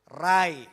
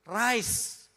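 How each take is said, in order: First: The final s sound is dropped. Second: The word ends with a clear s sound. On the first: The speaker calls it wrong. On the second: The speaker calls it right.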